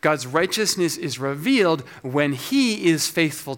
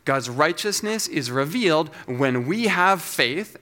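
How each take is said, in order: First: "he" stressed and stretched; deliberate read with weight on "he". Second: "we" leaned on and drawn out, slow delivery; slow, deliberate line with "we" stressed. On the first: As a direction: lean on "he" to put the emphasis on God. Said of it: "The second puts the emphasis on God". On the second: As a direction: lean on "we" to put the emphasis on us. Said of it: "The first puts the emphasis on us". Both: Shown as a demonstration.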